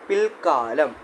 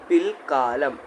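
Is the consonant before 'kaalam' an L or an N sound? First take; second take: L; L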